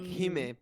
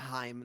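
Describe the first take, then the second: First: The first vowel sounds like 'ee'. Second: The first vowel sounds like 'eye'. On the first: "you read like Hime, princess" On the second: "I didn't understand the uh, The the R R. vowels"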